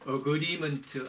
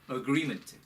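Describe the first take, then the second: First: The r sound is weak or missing. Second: The r sound is clearly pronounced. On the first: The speaker calls it wrong. "그냥 agreement 아닙니다" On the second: The speaker calls it right. "R 발음이 있으니까 agreement"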